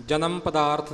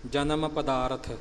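First: ਪਦਾਰਥ run together as pa-daarth; mistaken pronunciation. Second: ਪਦਾਰਥ with a short light vowel before the final th; correct pronunciation. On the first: Teacher showing the reading to avoid, ਪਦਾਰਥ as pa-daarth. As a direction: close up the end of ਪਦਾਰਥ, no vowel before th. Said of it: "ਨਹੀਂ ਬੋਲਣਾ". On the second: Teacher showing the right reading of ਪਦਾਰਥ as pa-daa-rath. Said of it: "ਜਨਮ ਪਦਾਰਥ ਨਹੀਂ ਬੋਲਣਾ". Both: Shown as a demonstration.

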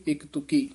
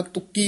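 First: ਤੁਕੀ with a light single k; untightened consonant. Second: ਤੁਕੀ with a tight, doubled k; tightened consonant. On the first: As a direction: say ਤੁਕੀ softly, no doubled k. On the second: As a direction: press hard on the k of ਤੁਕੀ. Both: Shown as a demonstration. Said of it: "ਤੁਕੀ ਨਹੀਂ ਕਹਿਣਾ ਕਸ ਕੇ".

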